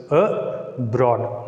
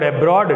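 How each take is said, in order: First: "a broad" said as two separate syllables; split into syllables. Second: Said in the usual way. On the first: Shown as a demonstration. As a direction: break "a broad" after the "a". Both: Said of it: "divided it into two syllables".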